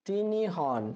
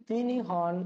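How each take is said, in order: No difference in how they are said.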